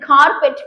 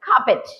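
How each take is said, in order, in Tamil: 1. r ஒலி தெளிவாக உச்சரிக்கப்படுகிறது. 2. r ஒலி உச்சரிக்கப்படுவதில்லை. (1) "இது carpet கிடையாது" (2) "பிரிட்டிஷர்ஸ் வந்து இந்த ஆரை ப்ரொனவுன்ஸ் பண்ண மாட்டாங்க"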